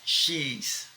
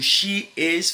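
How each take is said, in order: First: She is is shortened into one syllable. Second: She is is said as two full words.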